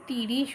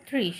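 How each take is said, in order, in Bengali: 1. একটি স্বরধ্বনি t ও r ধ্বনিকে আলাদা করে। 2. t ও r ধ্বনি মিলে একটি যুক্তব্যঞ্জন গঠন করে। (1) "আমরা যদি তিরিশ উচ্চারণ করি ... সেই বানানটা ঠিক নয়" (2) "তাই বললাম তিনে শূন্য ত্রিশ"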